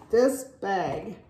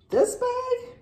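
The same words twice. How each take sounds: First: Said in the usual way. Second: Much higher, squeaky THIS BAG; thrilled emphasis, pitch leaping up; excited squeal. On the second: Real, not acted. Repeating words to show off bag.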